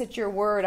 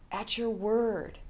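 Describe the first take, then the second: First: Said in the usual way. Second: "At your word." said slowly and softer, falling on "word"; slow emphatic repeat. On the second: Retold or imitated. Repeating Peter's answer to Jesus, slow and hushed. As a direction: lean into "word" and let it fall, reverent and slow.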